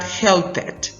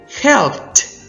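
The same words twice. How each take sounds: First: The ending is said as an extra syllable. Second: The ending blends in, giving one syllable. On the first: The speaker calls it wrong. "not pronounced as an extra syllable" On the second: The speaker calls it right. "helped is not"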